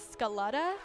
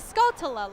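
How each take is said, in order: First: The name is pronounced with a 'letta' ending. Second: The name is pronounced with an 'ltula' ending. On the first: The speaker calls it wrong. "I didn't know that I was saying it wrong" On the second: The speaker calls it right. "It's a Scaltula"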